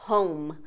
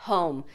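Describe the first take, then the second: The two takes are said the same way.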